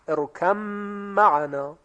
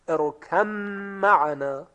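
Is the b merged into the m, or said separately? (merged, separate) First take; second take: merged; merged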